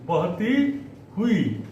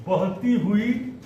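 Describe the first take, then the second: First: Slow syllable drill. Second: Said in the usual way. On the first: Shown as a demonstration. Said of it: "slow repeat for class". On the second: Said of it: "first reading".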